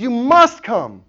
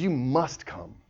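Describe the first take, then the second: First: Drawn-out, high, loud MUST in "You must come"; commanding MUST. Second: Said in the usual way. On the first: Acted. Preacher voicing God's binding call to come, commanding stress on "must". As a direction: hammer "must" slowly, pitched up high. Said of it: "It's a moral imperative". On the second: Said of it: "He says".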